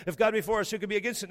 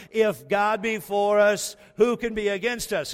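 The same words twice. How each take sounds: First: Said in the usual way. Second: Louder and slower, like a brash New Yorker. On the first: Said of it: "So let's role play like we're there". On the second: Shown as a demonstration. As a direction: belt it out the way New Yorkers would. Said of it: "Say it like you're an arrogant New Yorker".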